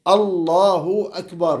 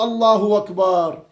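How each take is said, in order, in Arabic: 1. أكبر تبدأ بهمزة قطع واضحة. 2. أكبر تبدأ بصوت w بدلاً من ذلك. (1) "فلابد أن تقول هكذا" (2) "مو ... قلبها واوا"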